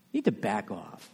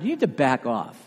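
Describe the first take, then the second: First: Much softer, dropped low; quieter repeat. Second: Said in the usual way. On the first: Real, not acted. Preacher pressing the rebuke home to attackers, much softer. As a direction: let the rebuke sink to near a murmur.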